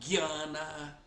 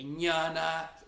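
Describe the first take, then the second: First: The word starts with a 'gy' sound. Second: The word starts with an 'ny' sound. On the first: This is the Bengali pronunciation. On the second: This is the pronunciation outside Bengal.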